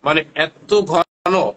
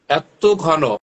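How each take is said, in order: First: ঘন dragged out slow and leaned on hard; stressed thick. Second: Said in the usual way. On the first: Shown as a demonstration. Seller shows viewers how thick the oil is, ঘন drawn out slowly. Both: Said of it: "And এটা এত ঘন".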